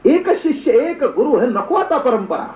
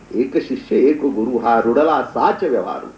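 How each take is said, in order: First: High, drawn-out acted objection; impassioned protest. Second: Slow, low, measured recitation; recited rule. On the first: Disciple urges guru to drop the tradition, protesting passionately. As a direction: argue against the rule with soaring pitch. Acted argument against the old rule. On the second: Real, not acted. Preacher quotes the sect's rule of succession, reciting. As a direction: intone the maxim with drawn-out words.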